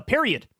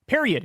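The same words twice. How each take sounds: First: Said in the usual way. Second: "Period." said alone, punched and final; emphatic closing "Period."; stressed period. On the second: Shown as a demonstration. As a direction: slam down the word "Period.".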